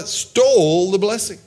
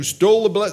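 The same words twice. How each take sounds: First: "stole" stretched out and pushed higher; stress on stole. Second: Said in the usual way. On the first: Real, not acted. Preacher correcting himself on who got the blessing, heavy stress on "stole". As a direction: lean long and hard on "stole".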